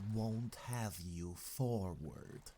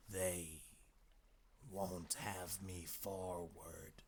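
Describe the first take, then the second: First: Slow, menacing echo in character; measured, drawn-out menace. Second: Slow, soft, queer hoarse voice; hushed hoarse creature, words dragged out. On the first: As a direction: throw the words back as a slow threat. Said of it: "in a menacing voice". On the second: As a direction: cower and rasp it out slowly. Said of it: "hoarse quality in his voice". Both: A narrator's reading.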